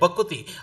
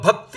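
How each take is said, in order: First: An extra u vowel separates the k and t. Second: The k and t sounds are joined without a vowel. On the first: "ಭಕುತಿ ಎಂದಾಗ ಒಂದು ಸ್ವರ ಜಾಸ್ತಿ ಆಯಿತು" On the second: "ಅಲ್ಲಿ ವಿಜಾತಿಯ ವ್ಯಂಜನ ಇದೆ"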